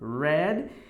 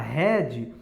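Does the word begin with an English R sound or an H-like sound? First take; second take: R sound; H-like sound. First: It begins with an English R sound. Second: It begins with a breathy H-like sound. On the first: The speaker calls it right. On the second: The speaker calls it wrong.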